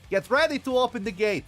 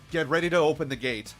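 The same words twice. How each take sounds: First: It is said in a put-on character voice. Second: It is said in a plain narrating voice.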